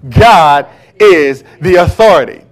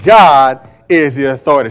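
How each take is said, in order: First: It is said in a forceful, commanding way. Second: It is said in a plain, ordinary way. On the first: "Say it again with authority" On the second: "Say that with me"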